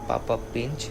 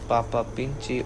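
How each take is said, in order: First: The name ends without the final vowel. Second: The name ends with a pronounced final vowel.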